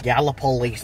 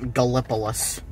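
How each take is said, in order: First: The name is said in the local pronunciation. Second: The name is said in the outsider pronunciation. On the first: The speaker knows the area. The speaker calls it right. "No, it's Gallipolis" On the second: The speaker is unfamiliar with the area. The speaker calls it wrong. "not Gallipolis"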